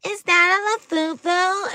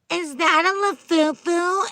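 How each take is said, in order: First: High, slow mocking question; exaggerated snooty squeal; snotty mean girl. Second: High, drawn-out mocking question; put-on snotty squeal, slowed down; snotty girl. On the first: Mean girls calling out a fake Labubu, high and snotty. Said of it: "the B I T C H's go". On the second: Snotty girls judging a fake Labubu, high and mocking. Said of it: "snotty girls being like".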